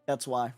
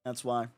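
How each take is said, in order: Both takes have the same delivery.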